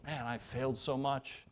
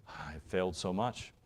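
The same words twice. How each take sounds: First: Soft, heavy admission of failure; quietly regretful sigh. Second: Said in the usual way. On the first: Retold or imitated. Pastor echoing a parent's guilt, soft and rueful. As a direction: let the regret sink in softly. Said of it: "I feel that". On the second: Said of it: "we can think".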